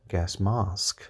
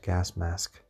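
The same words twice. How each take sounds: First: Gas mask slowly, mask with a long open ah like mahsk; British gas mask. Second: Gas mask with the same short flat a in gas and mask; American gas mask. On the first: Podcaster demonstrating the British vowel to listeners, slow. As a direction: stretch out gas mask, mask with a broad ah. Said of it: "it's a bit closer to the British". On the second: Podcaster showing listeners her American habit, same vowel. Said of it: "have a similar vowel in American English". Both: Shown as a demonstration.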